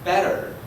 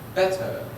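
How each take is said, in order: First: It is said in an American English accent. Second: It is said in a British English accent. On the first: "In the United States" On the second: "In the United Kingdom"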